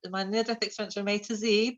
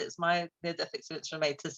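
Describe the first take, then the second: First: Z is said the American way, as zee. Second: Z is said the British way, as zed.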